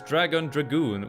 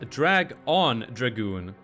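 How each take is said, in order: First: The first part is said as one word. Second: The first part is split into two words. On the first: The speaker calls it right. "The original Japanese title is" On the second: The speaker calls it wrong. "mispronounced as"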